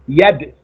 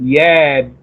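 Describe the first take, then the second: First: The vowel is kept short. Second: The vowel is stretched out long. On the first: The speaker calls it right. "There's no extension there" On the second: The speaker calls it wrong. "try not to stretch that. Don't say yad"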